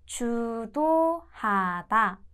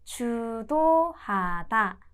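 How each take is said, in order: Both takes have the same delivery.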